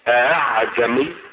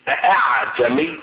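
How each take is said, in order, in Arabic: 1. الهمزة الثانية مسهّلة، لا تُنطق كاملة. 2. الهمزة الثانية تُنطق كاملة. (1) "بتسهيل الهمزة الثانية" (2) "بنطق الهمزة الثانية"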